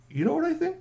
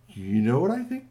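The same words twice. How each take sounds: First: Excited high squeak of a worried friend; squeaky high repeat. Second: Said in the usual way. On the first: Acted. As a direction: jump way up in pitch on the repeat, "You know what I think?".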